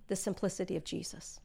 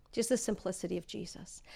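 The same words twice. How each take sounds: First: Soft. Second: The simplicity of Jesus breathed in a whisper; a reverent whisper on Jesus. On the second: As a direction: drop to a whisper for the repeat. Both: Shown as a demonstration.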